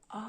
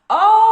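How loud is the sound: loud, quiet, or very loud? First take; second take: quiet; loud. First: The vowel is said quietly. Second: The vowel is said somewhat louder. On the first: "Спочатку зробимо це тихо" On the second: "А тепер голосніше"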